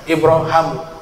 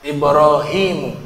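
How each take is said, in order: First: The vowel after the h is a. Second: The vowel after the h is i. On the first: "Huruf h-nya dibaca fathah" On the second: "Ada ya juga di huruf h-nya"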